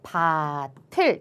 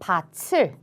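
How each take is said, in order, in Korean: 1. 모음 앞의 자음은 t처럼 소리 나요. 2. 모음 앞의 자음은 ch처럼 소리 나요. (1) "이렇게 발음하는 게 올바른 발음인데요" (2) "밭을이라는 발음 틀렸죠"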